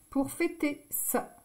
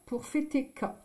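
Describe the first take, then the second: First: The last word begins with an s sound. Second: The last word begins with a k sound. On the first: The letter has its cedilla. The speaker calls it right. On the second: The cedilla is missing from the letter. The speaker calls it wrong.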